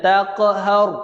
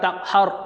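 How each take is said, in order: First: The q sound has a short echoing bounce. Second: The q sound has no echoing bounce. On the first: The speaker calls it right. "Kena ada qalqalah. Lantunan" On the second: The speaker calls it wrong. "Jangan takhar, takhar. Salah tu"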